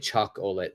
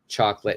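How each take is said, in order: First: The middle vowel is sounded as a full syllable. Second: The middle vowel is dropped, giving two syllables. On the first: The speaker calls it wrong. "do not say chocolate" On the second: The speaker calls it right. "This O here is completely silent"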